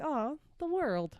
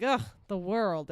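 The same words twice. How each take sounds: First: Slow, soft, tender aww; touched aww. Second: Slow, fed-up sigh at the world; disgusted groan. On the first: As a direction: melt a little, softly. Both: Retold or imitated. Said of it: "and you're like".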